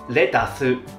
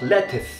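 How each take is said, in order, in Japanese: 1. 日本語のアクセントで発音されています。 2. イギリスのアクセントで発音されています。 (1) "So it's pronounced lettuce in Japanese" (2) "In British"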